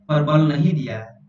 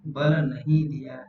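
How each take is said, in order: First: नहीं hit harder than the words round it; stress on नहीं. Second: Said in the usual way. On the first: Shown as a demonstration. Teacher warning exam students, stressing नहीं. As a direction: lean on नहीं so the students catch the negative. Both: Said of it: "ध्यान रखिएगा".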